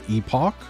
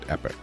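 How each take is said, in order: First: The second syllable sounds like 'ock'. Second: The second syllable sounds like 'ick'. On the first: This is the more common pronunciation today. "it is probably more common now to say epoch" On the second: This is the pronunciation older speakers grew up with. "old fuckers like me, we grew up and and time, you called it epic"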